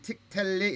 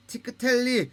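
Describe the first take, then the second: First: 틱 텔리 with the k closed, no vowel after it; strict pronunciation. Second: 티크 텔리 with an extra "eu" vowel after the k; lenient pronunciation. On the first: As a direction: stop 틱 on the k, then go straight into 텔리. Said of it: "엄밀한 의미에서는 틱 텔리 이렇게 돼야". (틱 텔리, 크 모음 없이 받침으로 닫아서) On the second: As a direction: release the k in 티크 as its own short syllable before 텔리. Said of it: "이렇게까지 읽어주는 것, 용인을 하겠습니다". (티크 텔리, 크를 한 음절로 살려서) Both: Shown as a demonstration.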